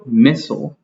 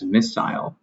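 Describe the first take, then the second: First: The second vowel is short, like 'ih'. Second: The second vowel is long, like 'eye'. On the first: "is the American accent. It pronounces it with the short sound" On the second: "they pronounce it with the long sound uh, for the second I"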